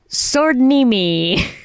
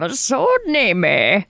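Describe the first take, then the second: First: It is said in a normal voice. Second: It is said in an old man's voice.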